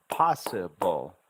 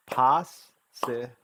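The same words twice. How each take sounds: First: Slow "possible" with pos-si joined and a small break before ble; syllables drawing together. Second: Very slow "possible", long gaps between pos, si and ble; separated syllables. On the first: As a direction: say possible slowly, nearly joined, loud start. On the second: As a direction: hold the S in pos, then pause before each next syllable of possible. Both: Shown as a demonstration. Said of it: "you have to hear the syllable sounds separately".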